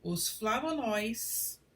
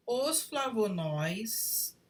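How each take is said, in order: First: "flavonóis" with open stressed ói, slowly; "flavonóis" stressing the open final ói; correct pronunciation. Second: "flavonóis" read as written, no stress on ói; "flavonóis" without the acute accent sound; wrong unstressed ending. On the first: Teacher showing the correct form, stressing "flavonóis". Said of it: "O correto seria". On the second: Teacher reading the faulty sentence, flat "flavonóis". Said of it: "flavonóis, sem acento, e deveria ter". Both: Shown as a demonstration.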